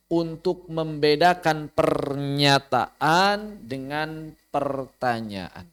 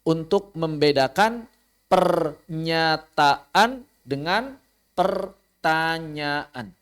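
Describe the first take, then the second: No difference in how they are said.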